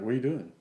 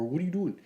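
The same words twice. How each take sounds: First: Said in the usual way. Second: Higher mock version of the stranger's question. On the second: Stranger questioning him at the back tee, in a higher mocking voice. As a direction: redo the line as the stranger would say it, pitched up.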